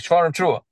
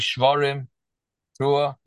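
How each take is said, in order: First: The two words run together quickly without a break. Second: A break separates the two words. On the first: The speaker calls it right. "he should say shvarim trua, to let the Baal Tekeya know that he should do the shvarim trua quick" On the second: The speaker calls it wrong. "he shouldn't say shvarim trua"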